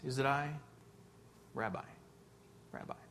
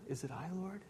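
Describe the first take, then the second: First: The question sounds cold and calculated. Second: The question sounds anxious and earnest.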